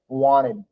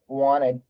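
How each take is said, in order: First: The T sound is dropped. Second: The T sound is dropped.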